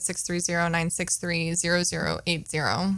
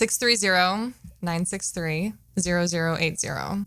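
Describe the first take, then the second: First: The number is said fast. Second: The number is said slowly.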